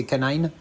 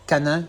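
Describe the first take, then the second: First: "canine" said the English way, ending like "nine"; English "canine", second syllable rhyming with "line"; English pronunciation. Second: Said in the usual way. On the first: Shown as a demonstration. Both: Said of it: "en anglais c'est canine".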